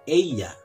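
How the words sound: The double L sounds like an English y. "kami menyebutnya ella, seperti seolah-olah huruf Y"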